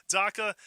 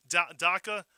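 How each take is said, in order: First: Said in the usual way. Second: Daca said in a Fall River accent, slipped in without meaning to. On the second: Real, not acted. Radio host reading a listener's post, Fall River accent. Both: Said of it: "Fall River accent".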